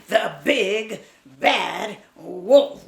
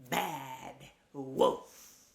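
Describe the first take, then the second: First: Slow, loud The big bad wolf with each word stretched; spooky slow chant of The big bad wolf; big bad wolf, drawn out. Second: Said in the usual way. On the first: Shown as a demonstration. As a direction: call out The big bad wolf slowly for the kids to join. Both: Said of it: "You wanna say that with me?".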